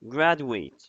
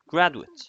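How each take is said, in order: First: It is said with the verb pronunciation. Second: It is said with the noun pronunciation. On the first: The word means to complete a degree. "it works as a verb when you pronounce it like this" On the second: The word names a person with a degree. "it works as a noun if we pronounce it like that"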